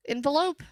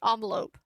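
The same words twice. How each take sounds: First: "Envelope" said with an IN/EN first syllable, questioning rise; EN-velope pronunciation. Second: "Envelope" said with an AHN first syllable, "ON-velope"; ON-velope pronunciation. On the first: Streamer checks the word with chat, "Envelope" as EN-velope, questioning. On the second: Streamer tries a word for chat, "Envelope" as ON-velope. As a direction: start "Envelope" with AHN, falling tone. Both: Shown as a demonstration. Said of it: "Am I saying it wrong?".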